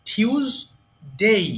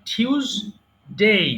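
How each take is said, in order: First: The first syllable has a 'y' glide after 't'. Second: The first syllable has a 'y' glide after 't'.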